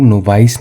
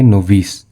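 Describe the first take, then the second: First: नोवाइस with a long "eye" in the second syllable; wrong pronunciation. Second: नोविस with a short "i" in the second syllable; correct pronunciation. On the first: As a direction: say नोवाइस so the end rhymes with "ice". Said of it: "नोवाइस नहीं पढ़ेंगे". (नोवाइस, दूसरे हिस्से में "आइ" की आवाज़) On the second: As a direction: say नोविस ending in "vis", not "vice". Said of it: "इसे हम लोग पढ़ेंगे नोविस". (नोविस, दूसरे हिस्से में "इ" की आवाज़) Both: Shown as a demonstration.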